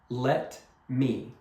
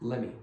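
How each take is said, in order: First: It is said slowly and carefully. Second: It is said fast and run together.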